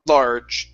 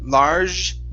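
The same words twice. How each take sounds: First: The final J is hard and short. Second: The final J is soft, like a French J. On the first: The speaker calls it right. "the J is is pretty uh, tough and it's short" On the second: The speaker calls it wrong. "a very French way to pronounce that"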